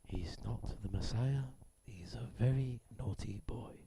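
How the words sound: It is read like a nature documentary narrator.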